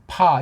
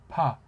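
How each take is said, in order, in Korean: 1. ㅍ는 입술을 닫고 세게 터뜨리는 소리입니다. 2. ㅍ는 부드럽고, 입술이 거의 닿지 않습니다. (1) "보통 파" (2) "가볍게 입술을 살짝 댔다가 띄우는"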